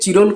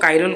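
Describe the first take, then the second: First: The name begins with a ch sound. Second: The name begins with a k sound. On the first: "ଯଦି କିଏ ଚିରୋଲ କହୁଛନ୍ତି କୁହନ୍ତୁ" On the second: "ମୁଁ ତାକୁ କାଇରୋଲ କହିଦେଉଛି"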